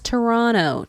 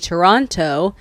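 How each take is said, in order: First: The second T is dropped after the N. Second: The second T is clearly pronounced. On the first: "The T actually disappears" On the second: "he doesn't say Toronto"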